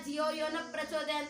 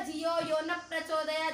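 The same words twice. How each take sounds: No difference in how they are said.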